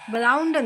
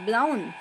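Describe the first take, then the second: First: The word ends with an extra d sound. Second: The word ends without any d sound. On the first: The speaker calls it wrong. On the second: The speaker calls it right.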